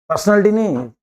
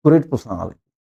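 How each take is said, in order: First: Said in the usual way. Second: "great personality" said low, with weight on "great"; emphatic praise. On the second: Shown as a demonstration. Teacher showing how to praise Kalam, low and weighty. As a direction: lean hard on "great".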